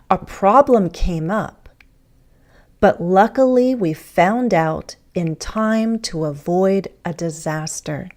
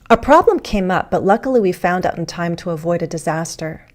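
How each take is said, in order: First: It is spoken slowly and deliberately. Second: It is spoken at a normal speed.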